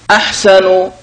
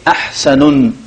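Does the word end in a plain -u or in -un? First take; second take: -u; -un. First: The word ends in a short u vowel. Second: The word ends in a u vowel plus n. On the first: The speaker calls it right. "all at the end we have one ضمة" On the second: The speaker calls it wrong. "don't say أحسن"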